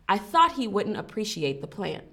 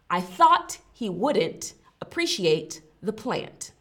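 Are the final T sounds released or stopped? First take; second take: stopped; released. First: The final T sounds are stopped, not released. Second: The final T sounds are fully released. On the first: The speaker calls it right. "it's a soft T, it's stopped right there at the end" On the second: The speaker calls it wrong. "if I were to emphasize all of the T's endings"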